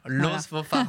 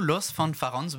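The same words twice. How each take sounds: First: The name is said with a French pronunciation. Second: The name is said with a non-French pronunciation. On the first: The speaker calls it right. "il faut le prononcer à la française" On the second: The speaker calls it wrong. "tu le prononces trop bien en fait"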